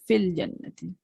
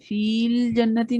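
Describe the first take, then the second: First: The first vowel is short, joined straight to l. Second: The first vowel is held long before the l. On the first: The speaker calls it right. "ये डायरेक्ट फा को लाम से मिला रहे हैं" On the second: The speaker calls it wrong. "फील जन्नती नहीं कहते हम"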